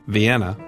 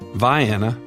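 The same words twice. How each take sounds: First: It is said in the standard way. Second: It is said in a local Southern way.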